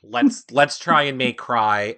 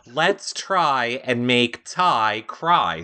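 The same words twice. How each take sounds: First: Tripping over "try" and "cry"; tongue-twister stumble. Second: Very slow, separating "try", "Ty" and "cry"; careful tongue-twister. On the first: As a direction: stutter the start and muddle the phrase. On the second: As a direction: pick through each word deliberately. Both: Real, not acted. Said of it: "Say that three times fast".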